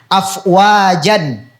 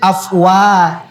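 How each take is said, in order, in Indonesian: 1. Kata itu berakhir dengan vokal pendek dan n. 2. Kata itu berakhir dengan vokal panjang, tanpa n. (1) "Kan itu jan kan? Nah, ada n-nya" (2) "n-nya itu dihilangkan. Iya, dan panjang dua harokat"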